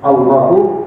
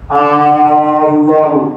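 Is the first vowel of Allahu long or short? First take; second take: short; long. First: The first vowel is short. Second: The first vowel is drawn out long. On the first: It declares that God is the greatest. The speaker calls it right. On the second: It turns into a question of whether God is great. The speaker calls it wrong.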